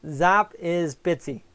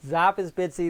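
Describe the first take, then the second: First: Zap is Bitsy said slowly, each word spaced; slow, deliberate. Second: Said in the usual way. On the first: Shown as a demonstration. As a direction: spell out the names slowly and clearly. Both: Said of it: "There's two names for her".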